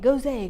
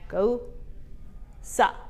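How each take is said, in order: First: It ends on the s sound, with no final vowel. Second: It ends with a final 'sah' syllable. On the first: The speaker calls it wrong. "I kept saying Gose" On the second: The speaker calls it right. "it's pronounced Gosa"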